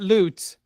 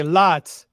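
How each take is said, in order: First: "loot" with a long oo vowel; "loot" rhymes with boot. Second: Said in the usual way. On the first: Shown as a demonstration. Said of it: "unless you meant loot". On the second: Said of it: "you meant to say lot".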